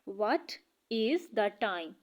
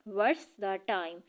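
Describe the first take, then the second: First: 'What is' is said as two full words. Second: 'What is' is shortened into one syllable. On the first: "ये जो व्हाट्स है ये व्हाट इज़ है" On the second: "हम इसे short करके pronounce करते हैं"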